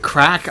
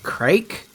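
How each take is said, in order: First: The word rhymes with back. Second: The word rhymes with make. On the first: This is how Irish speakers say it. "they pronounce it crack" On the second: This is how the speaker reads it from the spelling. "I always think of it as like crake"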